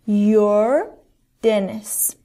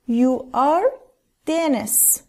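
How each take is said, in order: First: The words are joined into one contracted syllable. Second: The words are said in full, unjoined.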